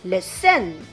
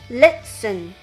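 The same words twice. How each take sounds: First: The stress is on the second syllable. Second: The stress is on the first syllable. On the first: The speaker calls it wrong. "not listen" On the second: The speaker calls it right. "the first syllable"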